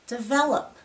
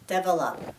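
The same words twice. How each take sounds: First: The stress falls on the second syllable. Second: No syllable stands out; the word is flat. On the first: The speaker calls it right. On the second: The speaker calls it wrong.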